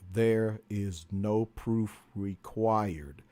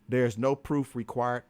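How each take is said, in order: First: The phrase is spoken at a slower pace. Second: The phrase is spoken at a normal pace.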